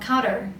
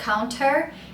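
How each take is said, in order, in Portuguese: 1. Ela é dita mais rápido, com sotaque americano. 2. Ela é dita com sotaque britânico. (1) "no americano eles falam counter, um pouco mais rápido" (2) "No britânico eles falam counter"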